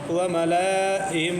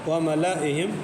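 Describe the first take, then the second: First: The vowel after the L is drawn out long. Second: The vowel after the L is kept short. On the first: The speaker calls it wrong. "नहीं पढ़ेंगे" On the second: The speaker calls it right. "बल्कि व मलइहिम पढ़ेंगे, लाम को नहीं खींचना है"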